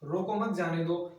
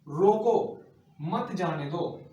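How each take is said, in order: First: The words run on without any pause. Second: A short pause comes after the first word. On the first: The meaning is unclear. "यही नहीं पता पड़ रहा है कि कहना क्या चाह रहा है" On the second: Stop him, do not let him go. "रोको के बाद में क्या लगाया? अल्पविराम चिन्ह लगा दिया"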